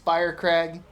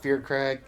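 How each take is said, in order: First: The first syllable sounds like 'fire'. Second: The first syllable sounds like 'fear'. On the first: This is how the character says the name. "Now he says Firecrag" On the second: This is how the player has always said the name. "I'm gonna call him Fearcrag"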